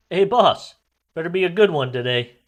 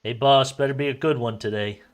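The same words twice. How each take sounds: First: Higher, louder, cocky greeting; big cheerful call. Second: Casual, friendly call to the boss; lighthearted greeting. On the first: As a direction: call it out across the arena. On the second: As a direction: toss it off lightly. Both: Acted. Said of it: "lightheartedly to the governor".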